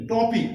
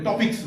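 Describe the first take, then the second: First: "টপিক" ending on k, no s; singular pronunciation. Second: "টপিকস" with an added final s; common mispronunciation. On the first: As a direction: say "টপিক" emphatically with no final s, higher pitched. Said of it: "অনেকে আমরা উচ্চারণ করে টপিকস বলি". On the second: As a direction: demonstrate the mistaken "টপিকস", ending in ks. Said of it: "উচ্চারণ করে টপিকস বলি, না". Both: Shown as a demonstration.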